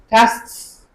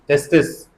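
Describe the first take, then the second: First: The final consonants are said with no extra vowel. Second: An extra vowel is inserted before the final s. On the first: The speaker calls it right. "So either tests" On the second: The speaker calls it wrong. "some non-native speakers say testis, for example, testis, which is incorrect"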